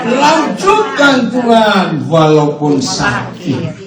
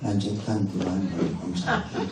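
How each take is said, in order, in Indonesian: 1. Diucapkan dengan semangat dan energi. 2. Diucapkan dengan lemas, tanpa semangat.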